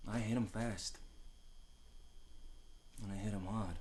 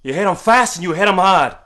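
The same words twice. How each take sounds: First: Much softer, calm memory; quiet recollection. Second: Higher, louder barked order; father yelling. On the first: Real, not acted. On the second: Retold or imitated. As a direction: drill the lesson in, shouting. Father orders son to fight.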